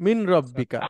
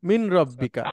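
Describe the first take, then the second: First: The n is clearly pronounced before the r. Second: The same.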